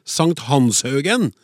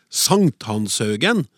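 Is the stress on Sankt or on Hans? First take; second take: Hans; Sankt. First: The stress is on the syllable Hans. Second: The stress is on the first syllable, Sankt. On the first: The speaker calls it right. "Det er jo Hans, hvilken helgen, som er interessant" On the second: The speaker calls it wrong. "trykket på første stavelse"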